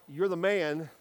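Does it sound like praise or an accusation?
praise. It sounds like casual, admiring praise.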